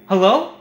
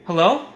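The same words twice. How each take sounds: The two takes are said the same way.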